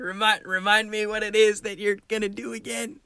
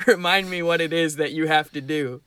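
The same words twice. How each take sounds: First: Put-on master voice, higher and held on one note; higher, steady mock-master voice; master's prompt rephrased. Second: Lightly disguised master giving a prompt; mock-mysterious master, at normal pitch; a hint of a put-on voice, measured delivery; disguised master's voice. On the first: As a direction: redo the master as an innocent memory check, pitched up. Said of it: "That's not the way you phrased it". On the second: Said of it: "Disguising my voice".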